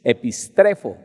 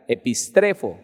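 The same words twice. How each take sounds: First: Said in the usual way. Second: Epistrefo with the first syllable E stressed. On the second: Shown as a demonstration. Pastor teaching the congregation the stress on the E. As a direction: lean on the E in epistrefo. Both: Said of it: "el acento va en la E".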